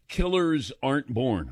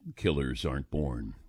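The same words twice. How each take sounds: First: It is said in his normal speaking voice. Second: It is said in a dramatic announcer voice.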